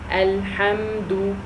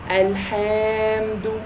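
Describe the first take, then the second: First: The vowel after the h is short. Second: The vowel after the h is long. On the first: The speaker calls it right. "it should only be ha" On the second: The speaker calls it wrong. "that means there is an alif mad after the ha"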